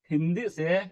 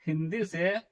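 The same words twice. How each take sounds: The two takes are said the same way.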